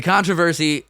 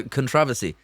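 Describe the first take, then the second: First: CONTROVERSY stressed on CON; first-syllable stress. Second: CONTROVERSY stressed on TROV; second-syllable stress. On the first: Co-host correcting himself, stressed CON-tro-ver-sy. Corrects his own earlier pronunciation. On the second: Co-host returning to his odd word, stressed con-TROV-ersy. Repeats earlier pronunciation, then corrects it. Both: Shown as a demonstration.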